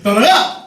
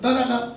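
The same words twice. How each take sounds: First: It is shouted fiercely and loudly. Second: It is said softly, like a timid girl.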